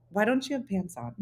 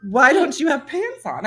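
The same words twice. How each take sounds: First: Imitating a softly puzzled technician; hesitant technician. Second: Imitating a baffled technician, pitched up; emphatic retold question, laughter underneath; incredulous technician. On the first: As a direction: ask it quietly, carefully, as an awkward question. Technician's puzzled question, first telling. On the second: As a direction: repeat it louder, with amused disbelief. Technician's question repeated, now emphatic.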